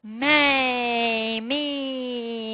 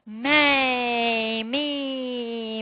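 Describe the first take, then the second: First: The sounds are strung together, exaggerated and projected. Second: The sounds are strung together, exaggerated and projected.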